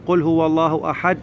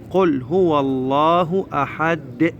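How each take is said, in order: First: أحد stopped dead on the د with no release; final dal cut silent. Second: Slow chant, أحد released as "ahad-de"; final dal bounced. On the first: Teacher shows the mistake of stopping silently, dal unreleased. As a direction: swallow the bounce at the end of أحد. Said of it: "ونسكت". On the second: Teacher models the correct stop, dal clearly bounced. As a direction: recite slowly, bouncing the د of أحد audibly. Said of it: "لازم ننطق دال د". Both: Shown as a demonstration.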